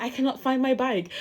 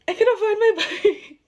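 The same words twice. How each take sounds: First: Said in the usual way. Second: Much higher and louder, laughing through it; mock-distraught cry with a laugh; half-laughing wail. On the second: Telling her sister the bike is gone, half-laughing wail. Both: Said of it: "And then I started crying".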